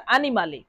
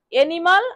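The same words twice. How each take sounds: First: অ্যানিমালে said "ah-nee-MAH-le", final e sounded; Italian pronunciation. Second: অ্যানিমাল said the English way, opening on "e", no final vowel; English pronunciation. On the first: Teacher comparing Italian with English for students, Italian pronunciation. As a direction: open on a clear "a" and end অ্যানিমালে on "le". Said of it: "Italian ভাষায় বলা হচ্ছে". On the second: Teacher comparing English with Italian for students, English pronunciation. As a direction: say অ্যানিমাল as English "ENimal", ending on the l. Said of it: "English ভাষায় কি বলি".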